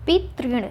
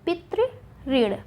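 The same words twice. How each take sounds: First: पितृण run together as pit-rin; the mistaken merged ri in पितृण; wrong form पितृण. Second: Very slowly say पितृऋण as pitri-rin; पितृऋण with two separate ri sounds; drawn-out double ri in पितृऋण; correct form पितृऋण. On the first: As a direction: say पितृण with a single tri. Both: Shown as a demonstration. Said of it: "पितृण नहीं होता".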